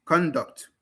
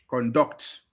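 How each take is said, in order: First: "Conduct" stressed on CON; CON-duct, first syllable stressed; noun stress. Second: "conduct" stressed on DUCT; con-DUCT, second syllable stressed; verb stress. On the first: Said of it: "stress on the first syllable". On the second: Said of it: "stress on the second syllable". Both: Shown as a demonstration.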